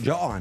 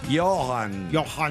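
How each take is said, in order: First: The name is said with an Italian-style pronunciation. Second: The name is said with a German pronunciation. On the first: This is how the speaker has always said it. "io l'ho sempre chiamato Johann" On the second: This is how it should be in German. "tedesco dovrebbe essere Johann"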